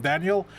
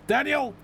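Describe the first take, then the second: First: Said in the usual way. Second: High, loud call of his name. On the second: Real, not acted. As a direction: yell his name to stop him. Calling out to the reckless driver.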